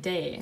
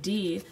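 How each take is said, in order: First: The letter ends in an 'ay' vowel. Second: The letter ends in an 'ee' vowel. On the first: The speaker calls it right. "you're saying day, because day is the alphabet letter in French" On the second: The speaker calls it wrong. "you're not saying D"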